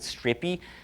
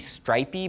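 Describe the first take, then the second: First: It is said with an Italian-style vowel. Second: It is said with the usual English vowel. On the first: This form gives the name a different connotation. "being Italian, they, they pronounce it strippy" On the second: This is the intended form of the name. "He's supposed to be stripy"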